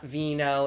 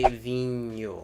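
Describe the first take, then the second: First: The word is said the Spanish way. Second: The word is said the Portuguese way. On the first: The speaker calls it wrong. "It's not vino, it's not anything that has to do with anything in Spanish" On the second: The speaker calls it right. "It's Portuguese and we say vinho"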